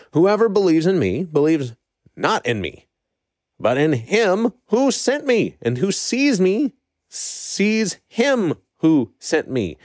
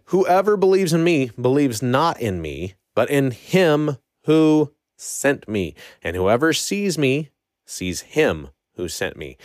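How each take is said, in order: First: Higher, slow and emphatic quote; impassioned proclamation. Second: Said in the usual way. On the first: Acted. Preacher re-reads Jesus crying out to the crowd, impassioned. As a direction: proclaim it with raised pitch and drawn-out key words. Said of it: "He was impassionate and loud about this". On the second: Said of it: "it literally just means with a loud voice".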